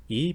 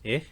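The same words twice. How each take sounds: First: Said in the usual way. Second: Ich as retracted e with breathy ending; pharyngealized vowel. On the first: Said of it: "e becomes ich". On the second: Shown as a demonstration. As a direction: pull the tongue root back on ich. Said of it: "letting it end with a breathy voice".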